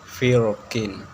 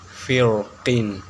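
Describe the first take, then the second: Both takes have the same delivery.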